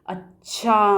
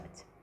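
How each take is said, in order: First: The word is stretched very long, sounding vengeful. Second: The word is said short and relaxed, sounding accepting. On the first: It signals retaliation. "अब इसको थोड़ा और time लगा करके बोलेंगे।" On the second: It signals acceptance. "यहाँ हम आराम से एक स्वीकृति की भावना के"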